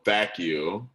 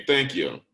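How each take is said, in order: First: "thank you" read as misspelled, dropping the n: "thak you". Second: Said in the usual way. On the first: Shown as a demonstration. Teacher reading out a student's misspelled sign-off, typo sounded out. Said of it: "the spelling's a little bit off here too". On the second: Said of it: "should be".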